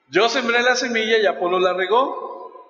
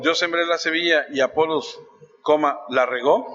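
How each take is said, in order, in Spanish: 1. No hay pausa después de 'Apolos'. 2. Hay una pausa después de 'Apolos'.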